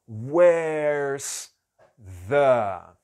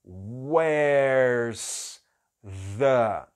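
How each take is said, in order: The two takes are said the same way.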